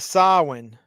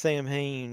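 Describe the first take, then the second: First: It is said with a w sound in the middle. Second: It is said as spelled, without a w sound. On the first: The speaker calls it right. "There's no W in there at all" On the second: The speaker calls it wrong. "It's not Sam Hain"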